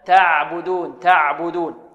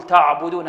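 First: تعبدون with thin, fronted a; correct light reading. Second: تعبدون with a thick, backed a; wrong heavy reading. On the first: Teacher corrects for pupils, measured light vowels. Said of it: "بل تعبدون". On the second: Teacher imitates some readers' mistake, heavy vowels. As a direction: thicken the first syllable of تعبدون. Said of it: "هذا خطأ". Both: Shown as a demonstration.

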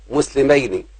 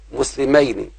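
No difference in how they are said.

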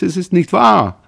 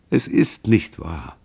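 First: Desperate plea. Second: Tender comfort. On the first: Son pleads with sobbing mother. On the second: Son comforts weeping mother. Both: A narrator's reading.

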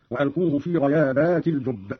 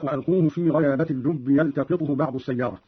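First: غيابات with long "aa" before the last t; plural reading. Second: Said in the usual way. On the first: Shown as a demonstration. Teacher showing Qalun's plural reading, غيابات with long "aa" ending. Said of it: "قرأ قالون بالجمع هكذا". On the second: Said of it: "قوله تعالى".

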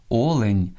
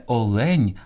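First: Олень stressed on О; stress on first syllable. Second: Олень stressed on ЛЕНЬ, slow; end-stressed олень; wrong second-syllable stress. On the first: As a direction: say О-лень. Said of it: "Слід казати". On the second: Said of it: "найчастіше неправильно наголошуєте". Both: Shown as a demonstration.

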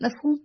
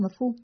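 First: "مفهوم" raised into a higher, rising question; questioning echo. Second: Said in the usual way. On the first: Acted. Caller querying the host's word, questioning "مفهوم" with a rise. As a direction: throw "مفهوم" back as a puzzled question.

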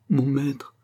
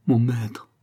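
First: «mon maître» redit dans un souffle, sans voix; répéter «mon maître» tout bas, brisé; chuchoté. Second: Said in the usual way. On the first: Acted. (Fonty prostré répète «mon maître», chuchoté) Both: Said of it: "se répétant".

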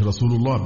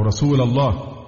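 First: رسول ending in "u", as "rasulu"; nominative ending. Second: رسول ending in "a", slowly, as "rasula"; wrong vocative ending. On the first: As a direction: say رسول الله with u on the l. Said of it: "بالرفع". ("رسول" بالرفع) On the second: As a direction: say رسول الله with a final a on رسول. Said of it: "أصبحت يا رسول الله". ("رسول" بالفتح كالنداء) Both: Shown as a demonstration.

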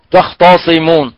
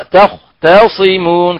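First: Mock mistake: تختصمون with a heavy ط; imitating wrong reading. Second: تختصمون with a light ت, drawn out slowly; correct reading. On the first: Teacher mimicking a wrong reciter, heavy ت. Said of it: "كمن يقرأ تخطاء". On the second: Shown as a demonstration. Teacher giving the correct reading slowly. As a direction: model تختصمون slowly with a thin ت. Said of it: "هذه تقرأ تختصمون".

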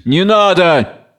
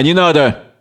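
First: Drawn-out, higher-pitched cry; mildly acted shout of refusal. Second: Said in the usual way. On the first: A narrator's reading. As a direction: cry out slowly in protest. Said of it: "Кричит".

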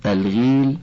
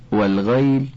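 First: الغيل with a long ee after the ghayn, "al-gheel"; kasra on the ghayn. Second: والغيل with an "ay" glide, "wal-ghayl"; fatha on the ghayn. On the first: (نطق «الغيل» بكسر الغين ومدّ الياء) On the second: (نطق «والغيل» بفتح الغين وسكون الياء) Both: Shown as a demonstration. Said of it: "بفتح الغين وكسرها".

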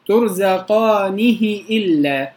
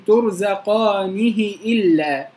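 First: ترزقانه إلا recited slowly with the ha stretched; ترزقانه إلا, draw out the ha; lengthened ha recitation; lengthened reading. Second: ترزقانه إلا recited slowly with the ha short; ترزقانه إلا, keep the ha of ترزقانه short; short ha recitation; short reading. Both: Shown as a demonstration. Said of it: "كسرة النون تبقى قد كسرة الهاء".

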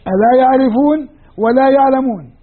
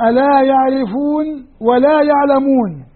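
First: Said in the usual way. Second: "ألا يعرفون ولا يعلمون" drawn out slowly; slow explanatory reading. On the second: Shown as a demonstration. Teacher dictating the implied phrase, slowly. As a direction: spell out the hidden verb slowly. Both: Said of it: "التقدير هكذا".

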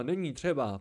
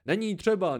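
First: Said in the usual way. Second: Put-on contented old man. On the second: A narrator's reading. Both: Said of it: "pravil spokojeně stařec".

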